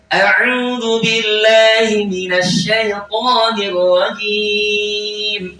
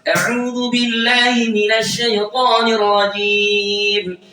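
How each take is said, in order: First: The phrase is recited at a fast pace. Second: The phrase is recited at a very fast pace. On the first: "kalau saya percepat" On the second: "ritme yang super cepat"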